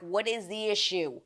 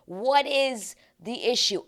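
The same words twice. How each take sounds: First: Said in the usual way. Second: Slow, loud, higher "What is the issue?"; "What is the issue?" drawn out in loud, high exasperation; exasperated emphatic repeat. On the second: Real, not acted.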